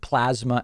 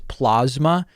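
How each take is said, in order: First: The word is pronounced the standard way. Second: The word is pronounced in an altered way. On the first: The speaker calls it right. "the word plasma" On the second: The speaker calls it wrong. "mispronounce the word plasma as plasma"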